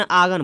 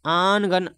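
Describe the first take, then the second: First: आगन with no n, a long open aa straight into g; silent nun. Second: आनगन with a clear n sounded before the g; with the nasal n. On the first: Teacher shows students the silent nun, आगन without n. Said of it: "नून को silent रख रहा है". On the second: Teacher shows students the sounded nun, आनगन with n. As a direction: say आनगन, pronouncing the nun fully as "aan-gan". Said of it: "मगर आनगन नहीं पढ़ के नून को silent रख रहा है". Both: Shown as a demonstration.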